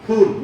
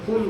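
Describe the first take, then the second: First: The word begins with an aspirated p sound. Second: The word begins with an f sound. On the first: It means a flower. The speaker calls it right. "फ, है ना, फूल" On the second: It means a fool. The speaker calls it wrong. "तुम तो मूर्ख कह दिया मैंने"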